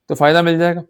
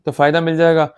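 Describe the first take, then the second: No difference in how they are said.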